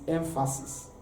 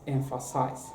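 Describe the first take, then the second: First: "emphasis" ending in -sis; "emphasis" closing on a soft s sound; noun pronunciation. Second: "emphasize" ending in -size; "emphasize" ending like the word "size"; verb pronunciation. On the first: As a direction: say "emphasis" as the noun, short i in the last syllable. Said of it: "noun form is emphasis". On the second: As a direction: say "emphasize" as the verb, long i in the last syllable. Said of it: "The verb form is emphasize". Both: Shown as a demonstration.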